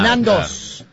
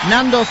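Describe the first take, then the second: First: The name ends with an s sound. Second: The name ends on a vowel with no s. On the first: The speaker calls it right. "con ese al final" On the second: The speaker calls it wrong. "¿está bien pronunciado así?"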